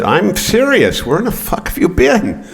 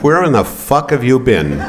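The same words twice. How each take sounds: First: Much higher, slow, insistent mother; insistent mom. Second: High mock-mother demand with a laugh; mom demanding. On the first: Retold or imitated. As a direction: press it like a mother who will not be brushed off. And she said, "I'm serious. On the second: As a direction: play the outraged mom, laughing through it. Mom demanding, first time.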